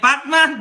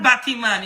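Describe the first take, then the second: First: Said in the usual way. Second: "Batman" said as "batty-man"; island-style "Batman" in three syllables; Trinidadian pronunciation. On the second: Shown as a demonstration. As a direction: add a middle syllable to "Batman", like "BAT-ee-man". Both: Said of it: "that's how we speak".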